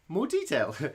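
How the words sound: It is said in a gentle, friendly tone. The speaker calls it right.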